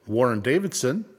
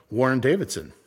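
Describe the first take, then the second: No difference in how they are said.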